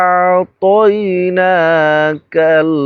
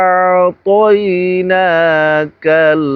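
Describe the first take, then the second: No difference in how they are said.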